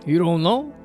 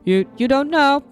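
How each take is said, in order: First: It is said in a plain voice. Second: It is said in a put-on character voice.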